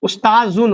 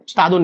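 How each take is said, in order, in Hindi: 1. अंत से पहले वाला व्यंजन 'z' ध्वनि है। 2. अंत से पहले वाला व्यंजन 'd' ध्वनि है। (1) "उस्ताजुन होगा" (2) "उस्तादुन नहीं होगा"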